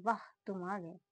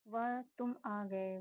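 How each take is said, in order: First: वाह said with a long "aa" as an exclamation; corrected to vaah. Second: वह said short as "vah", slowly; misread vah. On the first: Correcting her misread test sentence with a long वाह. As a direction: stretch the vowel in वाह. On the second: Reading a test sentence, first misreading वह slowly. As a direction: read वह with a short vowel, not वाह. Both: Shown as a demonstration. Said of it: "वहाँ नहीं".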